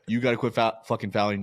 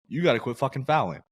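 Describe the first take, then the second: First: It is said in a harsh, belittling tone. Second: It is said in a supportive, encouraging tone. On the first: You are an idiot. The speaker calls it wrong. "it's not like yeah. ... you're an idiot" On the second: You are our best player and we need you on the court. The speaker calls it right. "it's the way that he says these things"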